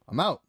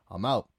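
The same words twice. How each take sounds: First: Higher and louder, final; emphatic exit. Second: Said in the usual way. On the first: Retold or imitated. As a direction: slam the door with your voice. Repeats, louder.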